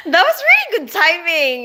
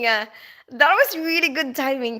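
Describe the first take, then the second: First: Delighted. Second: Said in the usual way. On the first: Real, not acted. Laughing at viewer's timing.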